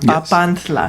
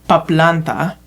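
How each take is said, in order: First: The l sound comes after the t. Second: The l sound comes before the n. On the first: The speaker calls it right. "That's how you pronounce it" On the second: The speaker calls it wrong. "Am I pronouncing that correctly?"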